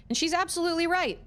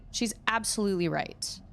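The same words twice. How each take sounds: First: Emphatic agreement. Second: Said in the usual way. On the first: Real, not acted.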